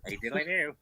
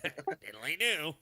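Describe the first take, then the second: First: Lightly voiced cheerful neighbour, nasal; a hint of Flanders' chirpy greeting; Ned Flanders impression. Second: Slow, stretched diddly do; Ned Flanders impression.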